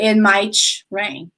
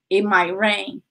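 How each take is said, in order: First: The T in might is released strongly. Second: The T in might is soft and subtle. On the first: The speaker calls it wrong. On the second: The speaker calls it right.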